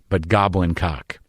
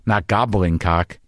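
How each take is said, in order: First: "goblin" as GOB-lin, slowly, as the creature; "goblin" stressed on its first syllable. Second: "gobbling" with a double b, like a turkey, slowly; "gobbling" said slow and clear, as in eating greedily. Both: Shown as a demonstration. Host correcting himself on his own podcast, slow and careful.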